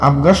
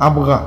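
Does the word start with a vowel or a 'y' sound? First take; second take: vowel; vowel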